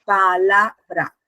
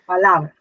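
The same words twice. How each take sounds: First: PALABRA slowly split as pa-la-bra; slow pa... la... bra, each syllable separate; divided into syllables. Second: Said in the usual way. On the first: Shown as a demonstration. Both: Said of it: "si la dividimos".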